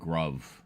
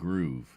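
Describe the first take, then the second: First: The vowel is short, like in 'grub'. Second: The vowel is long, like in 'groove'. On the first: This is how the speaker personally says it. "I always pronounce it Gruv" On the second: This is how the company wants it said. "they want you to pronounce it Groove"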